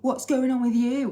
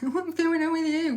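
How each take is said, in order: First: It is said in her ordinary voice. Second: It is said in a put-on teenage voice.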